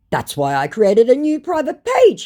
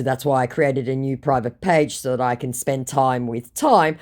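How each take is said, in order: First: Loud, high-pitched mock declaration; mock scammer. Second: Said in the usual way. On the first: Scammer defends his new page, mock emphatic. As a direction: put on an emphatic scammer reply. Scammer's boastful message acted out.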